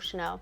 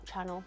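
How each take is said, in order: First: It is said the French way, like sha-NEL. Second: It is said like the English word channel. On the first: The speaker calls it right. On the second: The speaker calls it wrong.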